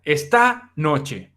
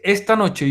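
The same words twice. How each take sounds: First: "esta" said slowly as está, stress on the last A; "esta" pronounced like está, with stress on the A; stress on the final A. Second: Said in the usual way. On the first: Shown as a demonstration. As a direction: lean on the A at the end of "esta". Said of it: "con acento o con tilde en la A". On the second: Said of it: "en vez de decir".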